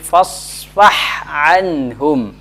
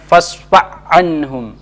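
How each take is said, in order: First: The final h is pronounced clearly and separately. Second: The final h blends into the next word. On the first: The speaker calls it right. "Harus jelas keduanya" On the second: The speaker calls it wrong. "Tidak boleh kita mengatakan"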